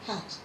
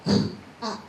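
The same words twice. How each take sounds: First: Said in the usual way. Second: K, at said as separate sounds with a gap; isolated k, then at; sounding out. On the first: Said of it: "able to blend it together". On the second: Shown as a demonstration. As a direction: sound out cat as k, pause, at. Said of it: "if we're sounding the word out".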